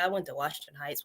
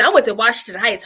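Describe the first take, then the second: First: It sounds unhappy and unenthusiastic. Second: It sounds excited and enthusiastic. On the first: The speaker had a bad time at the school. "if you did not like this school" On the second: The school meant something good to the speaker. "oh man, ... now we know that that means something to you"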